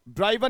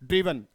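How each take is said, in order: First: The first vowel sounds like 'eye'. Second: The first vowel sounds like 'it'. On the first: The speaker calls it wrong. "ड्राइवन नहीं है" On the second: The speaker calls it right. "बल्कि क्या है? ड्रिवन"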